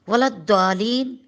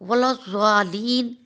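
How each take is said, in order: First: The middle consonant is a d sound. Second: The middle consonant is a z-like sound. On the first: The speaker calls it wrong. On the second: The speaker calls it right.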